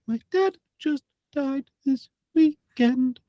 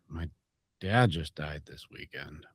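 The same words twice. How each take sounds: First: It is said in a high, light head voice. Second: It is said in a low, heavy chest voice. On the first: The serious message loses its weight. The speaker calls it wrong. "takes it up into a, a a head head voice area" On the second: The serious message keeps its gravity. The speaker calls it right. "It's a very different energy if you bring it down"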